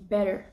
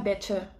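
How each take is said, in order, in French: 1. La consonne du milieu se prononce comme un d. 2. La consonne du milieu se prononce comme un t. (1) "on dit better... on remplace le T par un D" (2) "on dit pas better"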